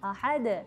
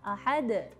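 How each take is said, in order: The two takes are said the same way.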